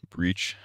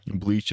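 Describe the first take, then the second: First: The word has a Japanese-style r-like sound. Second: The word has a plain English l sound.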